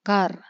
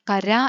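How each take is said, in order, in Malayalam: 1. വാക്ക് സ്വരമില്ലാത്ത വ്യഞ്ജനത്തിലാണ് അവസാനിക്കുന്നത്. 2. വാക്ക് ഹ്രസ്വ സ്വരത്തിലാണ് അവസാനിക്കുന്നത്. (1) "കർ കർ" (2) "കര എന്നല്ല വായിച്ചത്"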